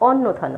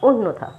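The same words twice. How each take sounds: First: The first vowel is an open 'aw' sound. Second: The first vowel is a closed 'o' sound. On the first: The speaker calls it wrong. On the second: The speaker calls it right.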